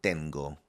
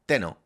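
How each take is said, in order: First: "tengo" with a clear g, ten-go; the right "tengo", the g sounded after the n; correct form tengo. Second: "teno" said with no g sound, te-no; the mistaken "teno", n straight into o; wrong form teno. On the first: Teacher giving learners the correct yo form, clear "tengo". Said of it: "we will say tengo". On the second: Teacher showing learners the wrong yo form, plain "teno". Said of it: "We don't say teno". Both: Shown as a demonstration.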